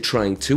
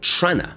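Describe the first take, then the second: First: Both words are said fully and separately. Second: The words blend into one short reduced form. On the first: The speaker calls it wrong. "we don't say trying to" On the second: The speaker calls it right. "we would usually say trana"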